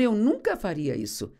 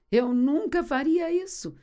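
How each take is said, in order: First: Peter's first denial, only mildly acted; firm protest. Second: Higher-pitched, insistent mock denial; emphatic protest. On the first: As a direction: protest with understated confidence. Pedro protesta e repete a frase. (protesto confiante, contido) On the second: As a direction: act out an overconfident denial, pitched up. Pedro repete o protesto, mais enfático. (protesto enfático, em tom mais agudo)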